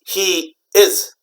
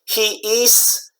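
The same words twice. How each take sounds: First: The word 'is' ends with a buzzing Z sound. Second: The word 'is' ends with a hissing S sound. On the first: The speaker calls it right. "You gotta say he is" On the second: The speaker calls it wrong. "Not good"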